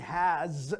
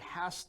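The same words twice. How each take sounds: First: The word ends with a buzzing z sound. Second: The word ends with a hissing s sound. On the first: "We will have a z, z sound, not an s sound" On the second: "if it's followed by a two, it will have a s sound"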